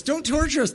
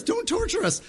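First: High whining plea from a demon; pitched-up demon pleading; begging demon. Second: Even higher, squealing demon plea; very high squealing demon begging. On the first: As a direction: beg for mercy in a pitched-up demon voice. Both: Acted. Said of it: "how the demons were begging Jesus".

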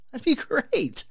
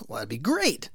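First: Eager thanks. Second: Said in the usual way. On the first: Retold or imitated. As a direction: repeat it much higher, brightly relieved. Repeats thanks to neighbour, pitched up.

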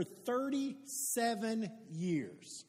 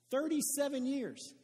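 First: Thirty-seven years stretched out very slowly and softly; slow drawn-out stress. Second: "Thirty-seven" punched higher, falling on "years"; higher emphatic repeat. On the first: Pastor to congregation, weighing the length, slow and drawn out. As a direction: let "thirty-seven years" sink in, each word drawn long. Stressing how long the addiction lasted. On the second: Pastor repeating to the congregation, raised emphatic repeat. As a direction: hit the number again, pitched up in disbelief. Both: Acted.

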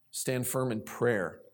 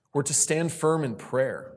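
First: Slow, soft emphatic repeat. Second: Said in the usual way. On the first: Shown as a demonstration. Repeats point softly and slowly.

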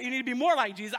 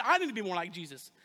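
First: Said in the usual way. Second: Pastor turns the rebuke on himself, stressing "I". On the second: Shown as a demonstration.

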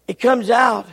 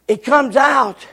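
Both takes have the same delivery.

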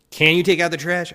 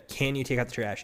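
First: High, loud, sing-song fake-sweet "take" rising; insincere. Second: Said in the usual way. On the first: Shown as a demonstration. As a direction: ask with exaggerated false sweetness, voice jumping up. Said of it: "I can't do it insincerely". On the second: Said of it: "But even the".

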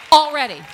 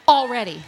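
First: Louder shout on Already. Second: Said in the usual way. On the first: Real, not acted. Preacher to the congregation, a full shout.

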